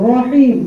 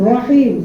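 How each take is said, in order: The two takes are said the same way.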